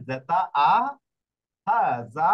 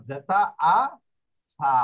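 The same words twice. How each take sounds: First: যা with a buzzing z; slowly spell, then say যা with voiced z; voiced zeta. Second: সা with a hissed s; spell, then stretch the unvoiced start of সা; voiceless zeta. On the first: Teacher repeating the contrast for learners, যা voiced. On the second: Teacher repeating the contrast for learners, সা voiceless. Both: Shown as a demonstration. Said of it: "কোনটা কখন হবে".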